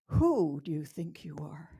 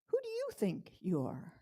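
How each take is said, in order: First: The stress falls on the word who. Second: The stress falls on the first you.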